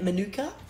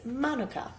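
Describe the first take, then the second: First: It is pronounced the usual Australian way. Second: It is pronounced closer to the New Zealand way. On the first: The speaker calls it wrong. "most of us Aussies are used to pronouncing it" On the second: The speaker calls it right. "The correct way of enunciating it is"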